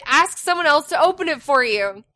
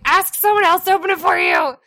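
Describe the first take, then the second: First: Said in the usual way. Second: Louder, higher retold yell; exasperated yell. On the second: Mom answers son through the door, retold exasperated yell. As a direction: call it out, losing patience. Second answer, mother losing patience.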